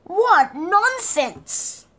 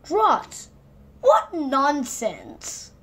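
First: Higher, louder, very slow; drawn-out exclamation. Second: Higher and louder, nonsense very slow; punchline exclaim. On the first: Narrator marvelling at the card game, high, loud, very slow. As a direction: stretch it out in delight. Same phrase earlier. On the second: Narrator ending the story on its pun, loud and drawn out. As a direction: deliver the joke with relish. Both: A narrator's reading.

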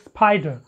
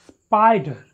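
First: "spider" with a popped P after the S; wrong aspirated P. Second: "spider" with no air after the P; unaspirated P. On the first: Teacher repeats the mistake, aspirated P in "spider". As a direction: let a puff out on the P in "spider". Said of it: "You cannot talk it". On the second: Teacher repeats the correct way, unaspirated P in "spider". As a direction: keep the P in "spider" unpopped. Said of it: "You have to talk it". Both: Shown as a demonstration.

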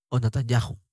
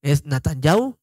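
First: NATANYAHU as "natan-YA-ju", soft J; soft J sound. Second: NATANYAHU as "natan-YAU", no H; silent H. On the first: Teacher contrasting two ways of saying Natanyahu, soft J. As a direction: sound a gentle J before the last U of "Natanyahu". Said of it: "es una J muy suave". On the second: Teacher contrasting two ways of saying Natanyahu, silent H. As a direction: glide from A to U at the end of "Natanyahu". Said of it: "no lo pronuncian". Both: Shown as a demonstration.

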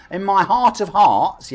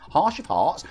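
First: "heart" said slowly with a clean final t; slow, raised correction of "heart", ending in t; corrected pronunciation. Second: "heart" slurred into "harsh"; stumbled "heart", ending in sh; slip of tongue. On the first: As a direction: carefully land the t in "heart". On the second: Tripped on the word, then corrects. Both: Real, not acted.

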